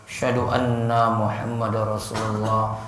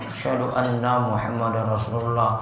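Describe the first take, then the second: The two takes are said the same way.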